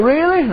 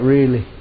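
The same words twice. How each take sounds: First: Much higher, astonished question; can it really be true; hopeful disbelief. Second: Lower, settled confirmation; calm assurance. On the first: Woman asking in disbelief. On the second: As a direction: reassure her it is true. Preacher answering with assurance. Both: Retold or imitated.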